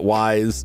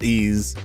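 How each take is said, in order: First: It sounds like 'wise', with an 'eye' vowel. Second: It sounds like 'ease', ending in a z sound. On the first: "It's not wise" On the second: "It's not ease"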